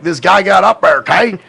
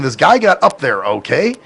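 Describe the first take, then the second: First: Loud, higher country twang, words merged; thick southern accent. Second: Said in the usual way. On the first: Shown as a demonstration. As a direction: exaggerate the Southern slur of "up there, okay". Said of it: "to me, sounds like". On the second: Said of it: "so what basically he's saying".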